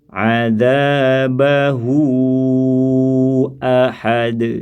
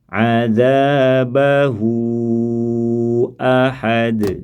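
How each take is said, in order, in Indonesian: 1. Vokal akhir dibaca panjang sampai kata berikutnya. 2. Vokal akhir dibaca panjang sampai kata berikutnya.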